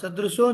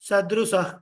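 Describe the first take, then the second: First: The word ends in an 'o' sound. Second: The word ends in an 'ah' sound. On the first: The speaker calls it wrong. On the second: The speaker calls it right.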